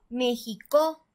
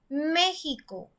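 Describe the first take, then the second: First: The stress is on the last syllable. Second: The stress is on the first syllable. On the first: The speaker calls it wrong. "Si fuera en la última sílaba" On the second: The speaker calls it right. "si pronunciamos más fuerte la antepenúltima sílaba, diría"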